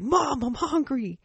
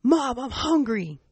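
First: Put-on high, slow, drawn-out child's whine; whiny hungry kid. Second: Put-on high, slow whine of a hungry little girl; whiny hungry kid.

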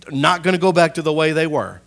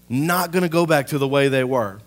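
No difference in how they are said.

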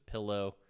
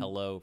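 First: Said in the usual way. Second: Pillow said as pellow; first vowel of pillow like bell; regional pronunciation. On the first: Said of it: "pillow versus pillow". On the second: Shown as a demonstration. Host showing a word intricacy, pillow said as pellow. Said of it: "weird intricacies in words".

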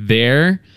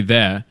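First: "There?" asked again with a rising tune and the vowel opened toward American; a questioning "There?" after blank stares; repeated "there". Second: "There" said the Aussie way with no r, falling; Australian "there". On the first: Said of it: "after three or four goes, I'm like". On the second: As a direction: retell the first "There" in a flat Australian vowel. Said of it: "I'll point to something and say". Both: Retold or imitated.

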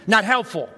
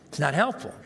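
First: NOT hit high and loud; punchy verdict. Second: Said in the usual way. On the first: Real, not acted. Preacher drives home the point to the congregation, punchy. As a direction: slam the word "Not".

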